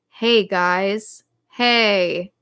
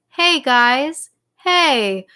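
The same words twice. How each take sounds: First: The talking voice is pitched low. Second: The talking voice is pitched higher. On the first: "if your speaking voice is down here" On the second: "see if you can pitch it up a little bit higher"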